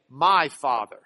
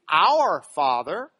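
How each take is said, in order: First: "My" hit lower and louder; stress on My. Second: "Our" drawn out, slow and louder; stress on Our. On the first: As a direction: punch "My" in "My Father". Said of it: "They would never say". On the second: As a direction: lean on "Our Father", slowly. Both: Shown as a demonstration.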